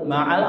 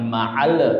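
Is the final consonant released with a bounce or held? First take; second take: held; bounced. First: The final consonant is held without bounce. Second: The final consonant is released with a bounce. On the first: The speaker calls it right. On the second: The speaker calls it wrong.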